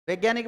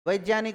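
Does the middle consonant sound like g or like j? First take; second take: g; j. First: The middle consonant sounds like a g. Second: The middle consonant sounds like a j. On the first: The speaker calls it wrong. "जो कि गलत है" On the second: The speaker calls it right. "वैज्ञानिक होगा"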